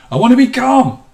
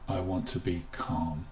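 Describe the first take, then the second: First: Said high and loud, strained; tense say. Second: Softer, lower, soothing; calming. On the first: Teacher demonstrating the un-calming way, high and loud. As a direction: blurt it out tense and keyed up. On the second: Teacher showing how to say calm calmingly, soft and low. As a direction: let it settle gently. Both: Shown as a demonstration. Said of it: "say it in a way that is calming".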